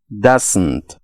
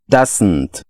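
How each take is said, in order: First: It is said as one contracted word. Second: The same.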